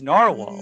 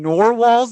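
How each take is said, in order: First: The first syllable rhymes with car. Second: The first syllable rhymes with door. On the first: The speaker calls it right. "It's narwhal" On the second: The speaker calls it wrong. "a nor like a door, nor door"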